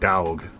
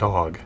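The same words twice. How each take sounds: First: The word is said with a slangy drawn-out vowel. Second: The word is said with a plain standard vowel. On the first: The speaker calls it right. "you gotta give it that little accent" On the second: The speaker calls it wrong. "not dog"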